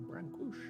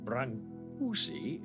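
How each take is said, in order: First: The name ends with an 'sh' sound. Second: The name ends with an 'ee' sound. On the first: "corrected me and said it's Brancush" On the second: "is how I pronounced it"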